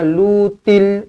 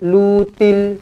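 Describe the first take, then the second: The two takes are said the same way.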